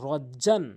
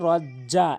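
First: The word ends with a final n sound. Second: The word ends in a long vowel without n. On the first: The reciter continues without stopping. "জিম আলিফ দুই জবর জান" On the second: The reciter stops on this word. "ওয়াকফ করলে রজ্জা এক আলিফ টেনে পড়তে হবে"

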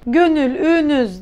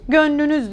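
First: The middle vowel is pronounced fully. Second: The middle vowel is left out. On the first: The speaker calls it wrong. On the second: The speaker calls it right.

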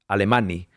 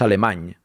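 First: The name ends with a clear 'ee' vowel. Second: The name ends without a clear 'ee' vowel. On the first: The speaker calls it wrong. "Decirlo como una I porque es una I" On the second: The speaker calls it right. "pero es Alemany"

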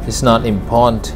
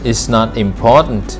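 Both takes have the same delivery.

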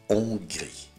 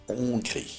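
No difference in how they are said.

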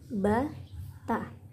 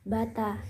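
First: The two syllables are said separately with a pause. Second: The two syllables are said quickly and joined. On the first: "kalau ini kan ba, ta" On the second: "harus cepat dan disambung"

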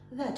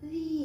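First: The vowel is short and neutral. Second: The vowel is drawn out and long. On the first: "произносится достаточно быстро и нейтрально" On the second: "немножечко его протянуть"

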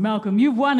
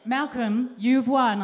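First: The voice is put on deep and low. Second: The voice is at an ordinary pitch.

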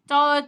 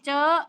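First: The word is said on a level mid tone. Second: The word is said on a high tone. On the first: "คำว่าเจอ" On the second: "ไม่ตี"

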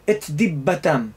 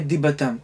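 First: The t sound is cut off clearly before the next word. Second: The t sound of the first word is dropped. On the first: The speaker calls it right. "אתה עוצר את האוויר, חותך אותו" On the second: The speaker calls it wrong. "לא ישמעו בכלל את התו"

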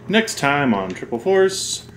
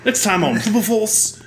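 First: It is said in the speaker's ordinary accent. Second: It is said in a put-on British accent. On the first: The speaker calls it wrong. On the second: The speaker calls it right.

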